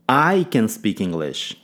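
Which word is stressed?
I. The stress falls on the word I. It is the speaker, not someone else, who speaks it. "Ênfase no pronome"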